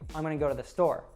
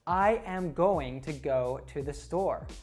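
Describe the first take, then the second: First: The words run together quickly and reduced. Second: Every word is said slowly and separately. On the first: The speaker calls it right. "a really big jumble of sounds" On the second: The speaker calls it wrong. "in a really slow way ... it sounds kind of robotic"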